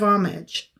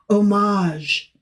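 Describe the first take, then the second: First: It is said the older everyday way. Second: It is said the newer way heard on news. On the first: This is how people had always said it before. "instead of homage" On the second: This is how the news suddenly started saying it. "Everything was suddenly homage"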